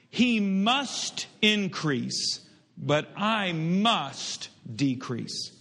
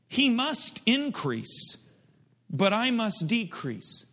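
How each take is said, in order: First: The word must is strongly emphasized. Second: The word must gets no special emphasis.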